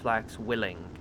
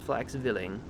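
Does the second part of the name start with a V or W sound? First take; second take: W; V. First: The middle consonant is pronounced as a W. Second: The middle consonant is pronounced as a V. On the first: The speaker calls it wrong. "not Flaxwilling" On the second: The speaker calls it right. "The W makes a V sound"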